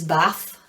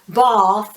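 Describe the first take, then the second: First: The name is said with a Yorkshire accent. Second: The name is said with a southern English accent. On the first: This is how the speaker's own people say it. "Yorkshire accent is Bath" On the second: This is how some other people say it. "in the South Bath, as some people call it"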